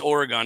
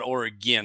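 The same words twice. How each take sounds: First: The word is said without an 'ee' sound. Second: The word is said with an 'ee' sound. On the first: The speaker calls it right. "it's Oregon" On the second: The speaker calls it wrong. "not Oregon. There's no I in Oregon"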